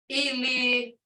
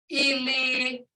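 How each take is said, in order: Both takes have the same delivery.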